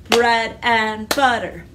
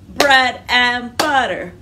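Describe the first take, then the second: Both takes have the same delivery.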